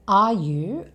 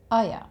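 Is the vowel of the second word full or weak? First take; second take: full; weak. First: The second word has a full 'oo' vowel. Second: The second word has a weak, reduced vowel.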